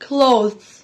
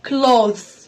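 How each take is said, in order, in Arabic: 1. الكلمة تُنطق كمقطع واحد. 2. الكلمة تُنطق كمقطع واحد.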